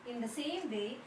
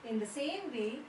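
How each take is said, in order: No difference in how they are said.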